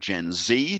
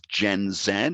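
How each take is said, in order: First: It is said with an American accent. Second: It is said with a British accent. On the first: "American accent"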